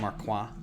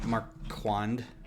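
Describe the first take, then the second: First: The name is said with a French pronunciation. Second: The name is said with a plain English pronunciation. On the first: "I want it to be French and say Marquand" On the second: "that's the lazy way to say that name"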